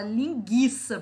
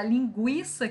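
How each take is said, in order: First: Linguiça with a silent u, as "lin-ghee-sa"; joking mispronunciation. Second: Said in the usual way. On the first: Retold or imitated. Teacher mimicking people who joke about the spelling, joking mispronunciation. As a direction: say linguiça jokingly, dropping the w sound after g. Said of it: "Tem gente que brinca e fala". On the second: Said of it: "a pronúncia é a mesma".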